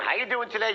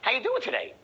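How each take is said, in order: First: The greeting sounds routine and uninterested. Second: The greeting sounds engaged and attention-grabbing. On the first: The speaker does not care how the listener is. The speaker calls it wrong. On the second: The speaker catches the listener's attention. The speaker calls it right.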